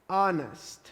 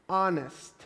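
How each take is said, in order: The two takes are said the same way.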